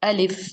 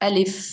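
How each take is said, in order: Both takes have the same delivery.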